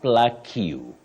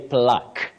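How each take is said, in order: First: It has an extra 'you' syllable after the k. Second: It is one syllable with nothing after the k. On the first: The speaker calls it wrong. "not plaque you. The U and E in that word are silent" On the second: The speaker calls it right. "you say plaque"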